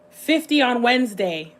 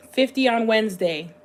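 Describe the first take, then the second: No difference in how they are said.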